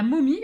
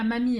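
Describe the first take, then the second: First: Momie with a clear round O, stressed; says momie. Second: Mamie with an open A, said as the wrong word; says mamie. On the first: Crafter correcting viewers, momie with a round O. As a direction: say momie, not mamie, mouth rounded on the O. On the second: Crafter contrasting the wrong word, mamie with an open A. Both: Shown as a demonstration. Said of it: "hein, pas mamie".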